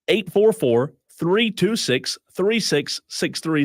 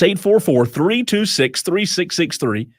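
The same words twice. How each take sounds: First: The number is read at a slower pace. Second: The number is read at a fast pace. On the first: "I'll say it slower" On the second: "I'm told I say it fast too"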